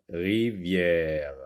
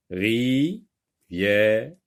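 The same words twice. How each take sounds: First: Rivière read smoothly as one word; read whole. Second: Ri-vière split into syllables. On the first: Teacher to pupils, reading the whole word smoothly. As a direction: blend it back into one word. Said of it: "Je lis le mot". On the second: Teacher to pupils, splitting the word into syllables. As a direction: sound out each syllable apart. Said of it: "on dit". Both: Shown as a demonstration.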